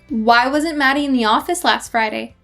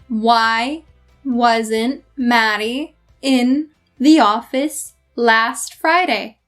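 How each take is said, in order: First: It is spoken at a normal conversational speed. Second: It is spoken slowly and carefully. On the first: "once at my normal speed" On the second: "once at my slow speed"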